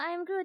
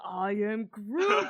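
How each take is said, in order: First: It is said in a small, babyish voice. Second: It is said in a deep, grown-up voice. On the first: The character is still a baby. "give him like the baby voice first" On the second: The character suddenly sounds like his grown-up self. "and suddenly"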